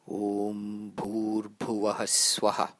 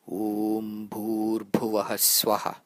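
No difference in how they are said.

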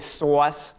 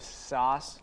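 First: The word has a Long Island accent vowel. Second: The word has a standard accent vowel. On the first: "They say sauce" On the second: "instead of sauce"

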